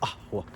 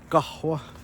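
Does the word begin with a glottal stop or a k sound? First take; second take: glottal stop; k sound. First: The word begins with a glottal stop. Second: The word begins with a k sound. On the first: This is the Levantine way of saying it. "in Levantine it's often a guttural stop" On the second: This is the Tunisian way of saying it. "Tunisian it's almost always a ko"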